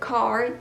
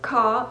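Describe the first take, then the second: First: The R at the end is pronounced. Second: The R at the end is dropped. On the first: "En lugar de car" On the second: "elimina la R al final de las palabras"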